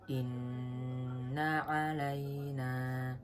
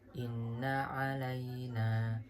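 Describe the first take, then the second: First: The nasal hum on the nn is long. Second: The nasal hum on the nn is short. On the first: The speaker calls it right. "yang lebih sempurna" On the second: The speaker calls it wrong. "kurang dengung ... itu kurang sempurna"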